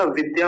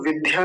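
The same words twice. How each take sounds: First: विद्या with plain unaspirated dy; correct form. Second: विद्या with aspirated dh before y; mispronunciation demo. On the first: Teacher correcting students, विद्या with plain dy. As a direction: keep the d of विद्या free of breath. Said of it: "विद्या होता है". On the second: Teacher rejecting the mistake, विद्या with aspirated dh. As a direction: breathe through the d in विद्या. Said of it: "तो विद्या नहीं होता". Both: Shown as a demonstration.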